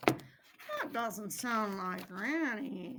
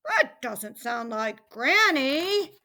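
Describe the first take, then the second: First: Slow, softer and lower hunter; puzzled hunter. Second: Slow, fairly loud puzzled hunter; alarmed hunter. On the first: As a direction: ponder it slowly, under your voice. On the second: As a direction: announce the suspicion slowly and loudly. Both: A narrator's reading. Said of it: "he was alarmed at the frightened racket".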